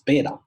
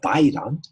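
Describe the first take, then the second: First: The first vowel sounds like 'eh'. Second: The first vowel sounds like 'eye'. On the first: The speaker calls it right. "it's Bedan" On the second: The speaker calls it wrong. "the pronunciation is not Baidan"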